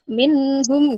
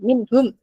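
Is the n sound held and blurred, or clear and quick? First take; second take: held; quick. First: The n sound is lingered over and blurred. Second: The n sound is clear and released immediately. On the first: The speaker calls it wrong. "saking menikmatinya itu membacanya minhum gitu" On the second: The speaker calls it right. "jangan sampai telat, langsung berangkat gitu"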